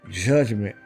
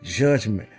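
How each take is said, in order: Both takes have the same delivery.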